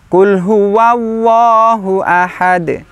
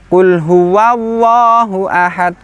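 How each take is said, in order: Both takes have the same delivery.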